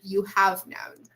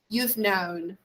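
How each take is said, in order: First: The auxiliary is pronounced as a full word. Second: The auxiliary is contracted to a short form. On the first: The speaker calls it wrong. "instead of say" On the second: The speaker calls it right. "we prefer to contract the um, auxiliary verb. So we say"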